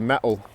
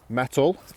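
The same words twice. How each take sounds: First: The T sound is dropped. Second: The T sound is clearly pronounced. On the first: "say them but dropping the T sound" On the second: "That's the received pronunciation version"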